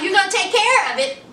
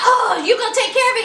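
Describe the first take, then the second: First: Said in the usual way. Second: Higher, fast, sassy disbelief; a touch of scornful imitation; incredulous mock retort. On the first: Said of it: "Gigi was like". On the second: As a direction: throw his words back at him, higher and quicker. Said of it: "She was like".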